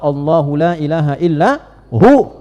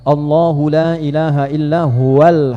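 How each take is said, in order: First: The pronoun is cut short with the ending dropped. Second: The pronoun is said in full, flowing on. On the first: The reader stops at this word. "Kalau berhenti di huwa, ... wa-nya enggak bunyi" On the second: The reading continues without stopping. "Huwa begini"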